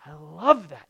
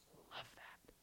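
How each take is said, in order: First: Said in the usual way. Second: Soft whispered I love that. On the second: Acted. God speaking to a broken spirit, whispered. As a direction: whisper it as God would, tenderly.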